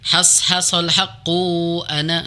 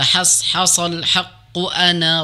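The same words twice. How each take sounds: First: The vowel after haqq is drawn out long. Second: The vowel after haqq is kept short. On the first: The speaker calls it wrong. "jangan dibaca panjang" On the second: The speaker calls it right. "haqqu kunya pendek ya"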